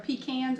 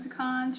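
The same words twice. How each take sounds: First: The word is said in a local Maine pronunciation. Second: The word is said in a posh, fancy pronunciation. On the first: This is how locals say it. "They are pecans up here in Maine" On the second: This is how refined outsiders say it. "I am not calling them pecans for all you fancy people"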